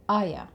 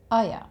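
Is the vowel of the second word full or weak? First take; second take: weak; weak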